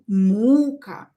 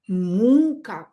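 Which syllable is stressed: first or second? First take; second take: first; first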